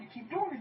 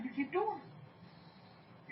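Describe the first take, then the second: First: Said in the usual way. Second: Slow, breathy whisper of the same words. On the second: Real, not acted. Preacher urging the congregation to keep going, slow whisper. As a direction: drop to a slow secret whisper. Preacher repeating his instruction.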